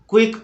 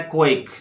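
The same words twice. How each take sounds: First: क्विक with "ku-ik", an oo glide; wrong pronunciation. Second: क्विक opening on "kwa", like "ko-ik"; correct pronunciation. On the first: Teacher quoting a common mistake, क्विक as ku-ik. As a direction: say क्विक as "kuik". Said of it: "पढ़ते हैं जो गलत है". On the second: Teacher correcting pupils, क्विक with the kwa sound. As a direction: say क्विक with a rounded kw start. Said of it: "यहाँ पर पढ़ना है". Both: Shown as a demonstration.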